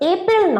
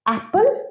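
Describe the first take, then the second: First: The first vowel is like the one in bet. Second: The first vowel is like the one in cat. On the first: The speaker calls it wrong. "এর উচ্চারণ এপেল নয়" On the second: The speaker calls it right. "এ লেটারের pronunciation কি? অ্যা।"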